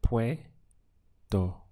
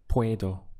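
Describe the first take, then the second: First: "puedo" stretched out slowly, syllable by syllable; slow modelled puedo. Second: Said in the usual way. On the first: Shown as a demonstration. Teacher slowly models "puedo" for the student. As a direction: draw out "puedo" slowly so the student hears each sound. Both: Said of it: "We have".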